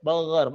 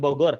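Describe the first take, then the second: First: "Bogor" with throaty gh for g; soft gha. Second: "Bogor" with an everyday hard g. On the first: Teacher drills a hometown answer, soft-g "Bogor". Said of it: "dibaca dengan lembut dan tebal". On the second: Teacher shows what to avoid, hard-g "Bogor". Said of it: "bukan Bogor". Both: Shown as a demonstration.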